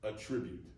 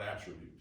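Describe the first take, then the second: First: The stress is on the second syllable. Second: The stress is on the first syllable. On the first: It is the verb meaning to assign a cause. "Let me s- pronounce it differently. It is the same word" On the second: It is the noun meaning a quality. "not attribute"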